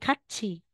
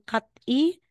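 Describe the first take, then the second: First: The consonant before the last vowel is ch. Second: The consonant before the last vowel is t. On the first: The speaker calls it right. "magiging catchy" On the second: The speaker calls it wrong. "instead na sasabihin mong cat E"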